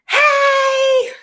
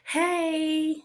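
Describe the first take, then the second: First: It is said loudly and excitedly. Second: It is said quietly and calmly.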